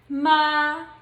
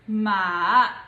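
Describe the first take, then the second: First: It is said in the first tone. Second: It is said in the third tone. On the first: "the pronunciation of the first tone would be" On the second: "the third tone would be"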